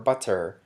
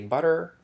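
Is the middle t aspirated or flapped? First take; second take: aspirated; flapped. First: The middle t is aspirated, with a puff. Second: The middle t is a quick flap. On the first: "the aspirated t" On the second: "the flap here"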